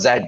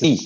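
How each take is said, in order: First: Z said as zed, ending in d; wrong zed. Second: Z said zee, long ee ending, no d. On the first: Teacher showing what to avoid, Z as zed. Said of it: "it's not". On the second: Teacher giving the correction, Z as zee. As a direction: say Z to rhyme with see. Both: Shown as a demonstration.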